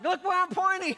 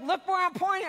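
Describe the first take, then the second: First: Much higher, louder mock-exasperated yell; teasing impression of an angry father; mocking dad. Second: Much higher, louder exasperated yell; a retold shout of pure frustration; mad at the kids. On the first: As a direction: daughter parroting her dad's frustration back at him. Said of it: "She was making fun of me". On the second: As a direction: snap it out at kids who won't look. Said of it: "And I get mad".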